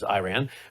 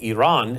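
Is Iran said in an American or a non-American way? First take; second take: American; non-American. First: Iran is said in an American way. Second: Iran is said in a non-American way. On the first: This is how Americans usually say it. "versus Iran" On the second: This is the pronunciation a colleague prefers. "as she likes to prefer I say it"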